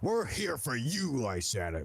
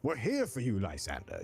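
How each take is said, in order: First: It sounds menacing and threatening. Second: It sounds warm and welcoming.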